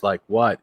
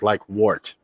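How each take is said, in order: First: Said in the usual way. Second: "wart" said with the vowel of "war" in place of "what"; "Like wart." with "wart" rhyming with "short". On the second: Shown as a demonstration. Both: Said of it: "You can do two variants".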